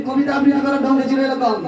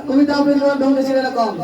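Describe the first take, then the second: The two takes are said the same way.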